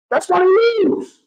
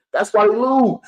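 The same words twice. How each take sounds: First: Much higher and slower, leaning on every word; hammering it home, slow and high; slow emphatic repeat. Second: Said in the usual way. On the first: Real, not acted. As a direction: drive the point home word by word.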